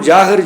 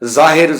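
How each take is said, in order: First: The first sound is a j sound. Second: The first sound is a z sound. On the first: The speaker calls it wrong. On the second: The speaker calls it right.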